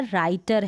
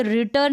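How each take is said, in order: First: राइटर with "eye" in it, "rai-tar"; correct long-I reading. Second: रिटर with short "i", as "ri-tar"; wrong short-I reading. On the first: Teacher corrects the misreading for learners, "rai" in राइटर. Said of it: "राइटर है". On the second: Teacher shows learners the misreading, short-i रिटर. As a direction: say रिटर to rhyme with bitter. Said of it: "तो ये रिटर नहीं है". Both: Shown as a demonstration.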